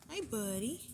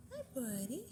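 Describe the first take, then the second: First: Pet voice. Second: Softer pet voice. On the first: Greeting a rabbit in baby voice. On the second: Greeting a rabbit softer. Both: Real, not acted.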